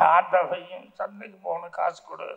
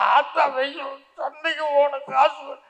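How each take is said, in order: First: It is said in a plain, ordinary voice. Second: It is said in a more childlike voice. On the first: "முதல் தடவை பேசுறது" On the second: "இன்னும் கொஞ்சம் குழந்த மாதிரி"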